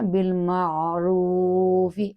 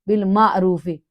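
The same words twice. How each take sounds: First: The voice is relaxed, not pushed. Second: The voice is pushed out with force. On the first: The speaker calls it right. "तो ये कैसे करना" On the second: The speaker calls it wrong. "ऐसे नहीं करना"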